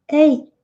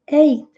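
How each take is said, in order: The two takes are said the same way.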